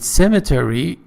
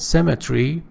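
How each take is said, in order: First: It is said with an American pronunciation. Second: It is said with a British pronunciation. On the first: "American pronunciation" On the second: "British pronunciation"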